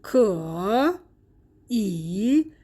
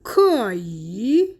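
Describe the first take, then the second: First: "کو" and "ای" as separate dipping syllables; unchanged tone three on both "کو" and "ای"; two third tones. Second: "کایی" joined, second tone then dipping third; slowly drawn "کایی", ending on a rise out of the dip; tone two plus three. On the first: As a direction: give "کو" and "ای" each its own third tone. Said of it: "هر دو تون سه". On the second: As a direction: sandhi demo of "کایی" as tones two-three. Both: Shown as a demonstration.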